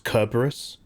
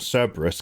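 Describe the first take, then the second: First: The first consonant is a hard K sound. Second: The first consonant is a soft S sound. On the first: "pronouncing the C like it was a hard K" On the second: "not Cerberus"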